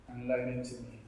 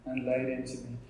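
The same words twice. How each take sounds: The two takes are said the same way.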